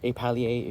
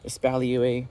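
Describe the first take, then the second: First: The word is pronounced the French way. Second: The word is pronounced the English way.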